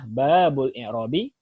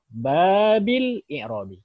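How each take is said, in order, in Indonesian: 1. Kata 'bab' diakhiri dengan vokal u. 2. Kata 'bab' diakhiri dengan vokal i. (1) "Pertama kita baca domah" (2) "Ketiga bisa kasrah"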